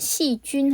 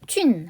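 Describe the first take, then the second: First: The syllable jun has a high level tone. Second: The syllable jun has a falling tone. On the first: It is the word for bacteria. "일성으로 발음하면 되겠고요" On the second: It means mushrooms. "사성으로"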